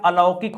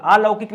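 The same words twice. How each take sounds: First: अलौकिक begun with a short "a"; correct short first vowel. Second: अलौकिक begun with a long "aa"; wrong long first vowel. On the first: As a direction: keep the first vowel of अलौकिक brief, "a-laukik". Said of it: "अलौकिक होता है". (अलौकिक का पहला अ छोटा बोलें) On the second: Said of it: "अलौकिक नहीं होता दोस्तों". (अलौकिक के पहले अ को लंबा "आ" बोलें) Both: Shown as a demonstration.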